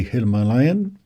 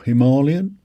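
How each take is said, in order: First: Himalayan said as him-uh-LAY-un; Himalayan pronunciation variant. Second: Himalayan said as hi-MAH-lee-un; alternative Himalayan pronunciation. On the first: Vlogger naming the bike he ordered, Himalayan as him-uh-LAY-un. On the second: Vlogger offering the other way, Himalayan as hi-MAH-lee-un. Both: Shown as a demonstration. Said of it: "whichever way you wanna pronounce it".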